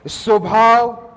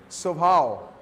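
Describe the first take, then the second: First: स्वभाव drawn out slowly and called loud; stretched out loud. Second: Said in the usual way. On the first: Shown as a demonstration. Pastor proclaims his favorite word to the church, loud and slow. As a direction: boom स्वभाव out to the hall. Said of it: "nice word". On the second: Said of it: "मुझे बहुत अच्छा लग रहा है".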